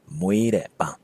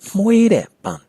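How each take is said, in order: First: The first word starts with a plain nasal. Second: The first word starts with a breathy nasal. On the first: Someone gave birth to a flower. The speaker calls it wrong. "It's not muere pan" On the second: A flower that smells sweet. The speaker calls it right. "a flower that smells sweet is muere pan"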